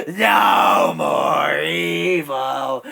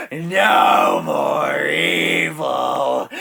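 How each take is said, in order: First: High, loud, long-held sung shout; deranged, drawn-out high chant; crazed singing. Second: Very slow, loud sung bellow; sung, belt it out in long held notes; deranged, drawn-out chant at normal-to-low pitch; crazed singing. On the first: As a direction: sing it out higher and madly. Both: Acted. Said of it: "laughing and singing the line".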